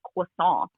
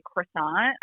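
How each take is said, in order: First: "croissant" in heavy French, "kwah-SOHN" with silent T; overdone French accent. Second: "croissant" with a full American R, "kruh-SAHNT"; American pronunciation. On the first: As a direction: exaggerate "croissant" as French, nasal ending, no final T. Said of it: "little bit of French". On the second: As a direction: say "croissant" the plain American way, R and final T sounded. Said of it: "I don't say croissant". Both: Shown as a demonstration.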